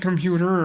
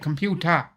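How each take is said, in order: First: It is said in the speaker's usual accent. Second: It is said in an imitated regional accent.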